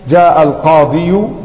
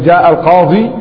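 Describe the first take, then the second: First: The final ya carries a damma vowel. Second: The final ya is a plain long vowel. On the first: The speaker calls it wrong. "ثقل" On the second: The speaker calls it right. "قل جاء القاضي"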